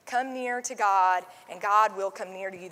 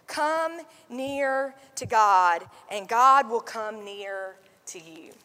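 First: Said in the usual way. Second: Slow, deliberate reading with every word weighed; slow scripture read. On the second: Shown as a demonstration. Pastor reads the verse to the congregation, slow and deliberate. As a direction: let each word of the verse land slowly.

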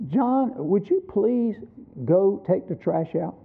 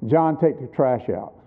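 First: Soft, slow polite asking, like asking a favour; father gently asks his little son to take the trash out, politely; polite request. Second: Lower, firm order, not a question; father tells his son to take the trash out, no room to argue; firm command. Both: Retold or imitated. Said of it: "you could tell in my tone of voice it really wasn't a suggestion".

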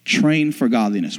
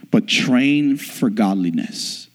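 First: "Train" punched at the start, normal pace; stress on train. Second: Slow, leaning hard on "train"; stress on train. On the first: Preacher repeating his point, stress on "Train". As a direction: open with a firm "Train". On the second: Preacher drilling the key word, slow stress on "train". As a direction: hit "train" and draw the phrase out. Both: Shown as a demonstration. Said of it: "put emphasis on the word train".

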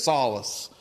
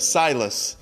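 First: Drawn-out country "Solace", first vowel opened to "sah"; country accent. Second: "Silas" as SIGH-lus, without the country flattening; standard pronunciation. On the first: Retold or imitated. Explaining wife's country accent, "Solace" said with a flattened vowel. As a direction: say "Solace" for Silas, the long i flattened country-style. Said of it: "in her country accent". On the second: Shown as a demonstration. Correcting the country version, "Silas" in standard pronunciation. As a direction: say "Silas" with a clear long "eye". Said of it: "instead of Silas".

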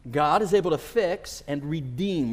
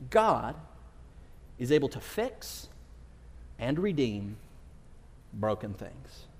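First: Said in the usual way. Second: God, pause, is able to fix, pause, and redeem, pause, broken things, each piece set apart and slow; stated with pauses. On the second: Shown as a demonstration. Preacher announcing the series theme to the congregation, slow and weighty. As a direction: lay down the sermon theme phrase by phrase with long pauses. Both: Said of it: "That's our theme".

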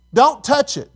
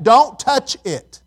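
First: Said in the usual way. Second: "Don't touch it" stretched out slowly, each word weighted; slow drawn-out warning. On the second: Shown as a demonstration. Preacher repeating God's command to the congregation, drawn out slowly. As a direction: slowly lean on every word.

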